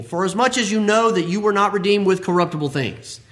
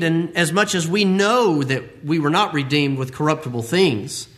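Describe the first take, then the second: First: Said in the usual way. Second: Know stressed, falling, slowed. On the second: Shown as a demonstration. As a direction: lean on the word know. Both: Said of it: "I want to emphasize that word".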